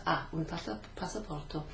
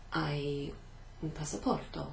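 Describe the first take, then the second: First: HA said as a plain "ah", silent h; corrected form. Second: HAI said like English "eye", silent h; mistaken form. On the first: Teacher corrects own slip to the formal question, HA as "ah". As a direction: say HA with one open vowel, no glide. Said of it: "listen for the difference in the pronunciation". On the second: Teacher slips while asking formally for a passport, mistaken HAI as "eye". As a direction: say HAI with a gliding "ai" vowel. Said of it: "I made a mistake". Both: Shown as a demonstration.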